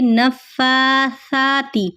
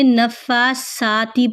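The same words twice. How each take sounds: First: The consonant is a soft th sound. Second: The consonant is a plain s sound. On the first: The speaker calls it right. "सा को हमेशा नरमी से पढ़ा जाएगा" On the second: The speaker calls it wrong. "ना कि आपने नफ़्फ़ासाति पढ़ना है"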